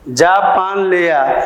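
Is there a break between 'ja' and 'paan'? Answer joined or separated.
joined. Ja and paan run together without any break. Bring Japan. "ये दोनों को अगर जोड़ दिया गया तो ये मिल गए"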